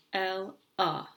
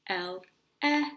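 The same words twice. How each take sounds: First: "L, A" split in two, the "A" as a muffled "uh"; "L, A" with the second syllable reduced to "uh"; muffled schwa. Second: "L, E" split in two, the "E" a full clear "eh"; "L, E" with the second vowel unreduced and stressed, "eh"; say to spell. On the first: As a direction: say "L, A" as "el, uh", the natural spoken syllables. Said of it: "really just a muffled sound". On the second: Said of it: "we're gonna say to spell". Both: Shown as a demonstration.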